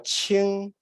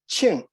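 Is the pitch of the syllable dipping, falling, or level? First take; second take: level; falling. First: The pitch stays level throughout the syllable. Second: The pitch starts high and then falls. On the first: "qing is a flat tone" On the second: "Qing is an oblique tone. ... you start with a high pitch tone and then you drop the pitch"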